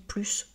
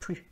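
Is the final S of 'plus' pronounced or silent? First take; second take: pronounced; silent. First: The final S sound is pronounced. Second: The final S sound is silent. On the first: It means a greater quantity. "quand j'ai un article partitif, je dis plus" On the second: It compares two things. "c'est un comparatif"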